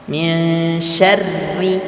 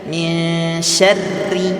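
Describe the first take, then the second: No difference in how they are said.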